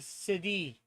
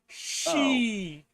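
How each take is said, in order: First: The word is said with two syllables. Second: The word is said with one syllable. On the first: The speaker calls it wrong. "I'm pronouncing it wrong" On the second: The speaker calls it right. "is just pronounced she"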